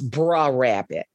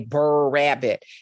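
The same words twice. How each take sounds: First: The first word sounds like "bruh". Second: The first word sounds like "burr". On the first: This is how the community says it. "It's a contraction of brother" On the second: This is how people outside the community say it.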